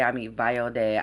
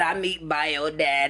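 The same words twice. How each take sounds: First: It is said in a normal speaking voice. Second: It is said in an odd put-on voice.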